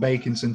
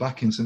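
First: The first syllable sounds like 'bake'. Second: The first syllable sounds like 'back'. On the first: This is the name's earlier pronunciation. "he's gone from Bakinson" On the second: This is the name's newer pronunciation. "to Backinson this week"

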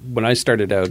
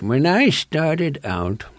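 First: It is said in the speaker's ordinary voice. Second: It is said in a put-on old man's voice.

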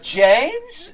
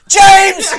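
First: It is said like a puzzled question. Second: It is said in a hysterical way.

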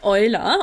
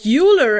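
First: The name is pronounced the German way. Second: The name is pronounced the international way.

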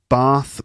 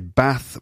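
First: The vowel is long, like in 'car'. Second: The vowel is short, like in 'trap'. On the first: The speaker is from the south of England. "In southern areas, people tend to say Bath with an R sound" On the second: The speaker is from the north of England. "in northern parts, people tend to say Bath with an A sound"

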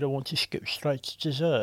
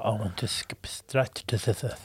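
First: It is said in a plain, ordinary voice. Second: It is said in a sexy French-like voice.

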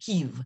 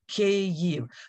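First: The word is said as one syllable. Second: The word is said as two syllables. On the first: The speaker calls it wrong. "mispronounce it. They say Kyiv" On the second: The speaker calls it right. "It is two syllables"

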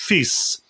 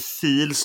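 First: The word is said without an l sound. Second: The word is said with an l sound. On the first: This is how the name is actually pronounced. "Det uttalet då, FIS" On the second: This follows the spelling of the name. "som det stavas"

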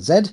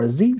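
First: The letter is said the non-American way, like 'zed'. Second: The letter is said the American way, like 'zee'.

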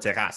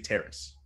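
First: The word is pronounced the French way. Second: The word is pronounced the English way. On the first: This is the local usage. "It's a Quebec thing" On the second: This is not the local usage. "we don't say terrace"

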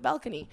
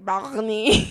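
First: It is said clearly, in a sober voice. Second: It is said slurred, in a drunk voice.

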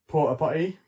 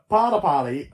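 First: It is said in a British accent. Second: It is said in an American accent. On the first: "in like a British accent?" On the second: "my American accent's so bad"

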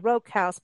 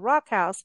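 First: The first word has a long 'oh' vowel. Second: The first word has a short 'o' vowel. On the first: The speaker calls it wrong. "I say" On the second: The speaker calls it right. "but apparently it's the Rock House"

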